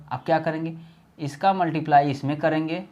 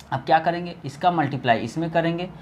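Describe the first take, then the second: No difference in how they are said.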